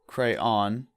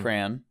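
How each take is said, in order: First: It is two syllables, ending rhyming with dawn. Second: It is one syllable rhyming with man. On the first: "With two syllables, where the second syllable rhymes with dawn" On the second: "with one syllable, rhymes with man"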